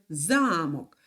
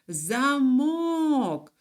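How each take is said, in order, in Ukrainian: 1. Наголос на першому складі. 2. Наголос на другому складі. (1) "А в слові замок навпаки. Перший склад за наголошений" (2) "І наголос уже падає на другий склад"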